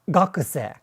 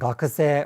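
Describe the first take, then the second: First: An English-style stress accent is put on it. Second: It keeps the standard Japanese pitch accent pattern. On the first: The speaker calls it wrong. "if you say the word like student as" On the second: The speaker calls it right. "rather than"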